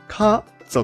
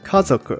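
First: The word is said at a measured pace. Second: The word is said more quickly.

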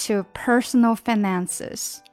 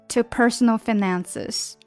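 Both takes have the same delivery.

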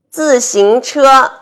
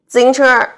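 First: Every syllable is clearly pronounced. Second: The middle syllable is swallowed.

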